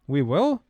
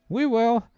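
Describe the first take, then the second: First: It sounds doubtful, like a questioning scoff. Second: It sounds upbeat and cheerful.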